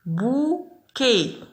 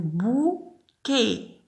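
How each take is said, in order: First: بوكي slow, a little higher; slow sounding out. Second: بوكي drawn out slowly; slow sounding out. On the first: Teacher repeats bouquet for pupils. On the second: Teacher sounds out bouquet slowly. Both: Shown as a demonstration. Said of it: "إذن بوكي".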